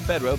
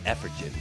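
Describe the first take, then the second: First: The name is said with its usual ending. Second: The name is said with a changed ending.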